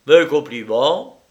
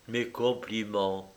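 First: Loud, lifted, rising at the end; big casual exclamation; breezy congratulations. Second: Soft, level repetition; quiet and unmoved; calm, indifferent. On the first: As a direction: toss out congratulations brightly upward. Lyra's first reply, called out. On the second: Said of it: "d'une voix parfaitement calme". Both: A narrator's reading.

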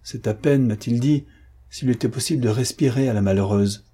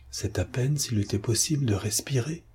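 First: Said in the usual way. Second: «C'est à peine» repeated in a muffled voice, much softer; stunned, echoing the words half to himself; dully repeated. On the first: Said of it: "répéta Patrice". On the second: A narrator's reading. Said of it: "répéta Patrice sourdement". («C'est à peine» répété sourdement, bien plus bas)

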